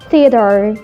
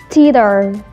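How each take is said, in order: First: The vowels in the middle merge into one. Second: The vowels in the middle merge into one.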